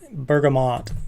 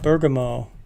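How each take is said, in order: First: The word ends with a final t sound. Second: The word ends without a final t sound. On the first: The speaker calls it right. "That's what it's called" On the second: The speaker calls it wrong. "not Bergamo"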